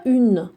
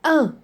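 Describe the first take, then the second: First: Une said with a sounded N; the wrong feminine "une"; une, N pronounced; wrong reading. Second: Un as a bare nasal vowel, no N sounded; Un, nasal only; correct reading. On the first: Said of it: "On ne dit pas une". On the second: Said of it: "U N, c'est un". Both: Shown as a demonstration.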